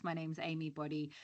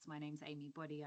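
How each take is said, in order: First: Speaking up; projecting the name; louder. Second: Very soft introduction; faint, barely audible name; quiet voice. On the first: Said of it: "I'll try and shout". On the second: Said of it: "You're really quiet". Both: Real, not acted.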